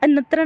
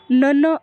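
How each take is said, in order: First: The word ends with a clear 'tra' sound. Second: The word ends with a nasal 'n' sound. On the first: The speaker calls it wrong. "नत्र नाही म्हणता येणार याला" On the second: The speaker calls it right. "नन तत्पुरुष समास असं म्हणायचं आहे"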